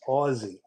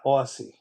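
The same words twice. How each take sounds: First: The middle consonant is a buzzing z sound. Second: The middle consonant is a hissing s sound. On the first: The speaker calls it right. "it's Aussie" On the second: The speaker calls it wrong. "not Aussie"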